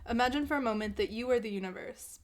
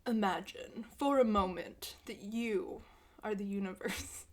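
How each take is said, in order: First: It is read in a normal, natural voice. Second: It is read in a put-on, theatrical voice.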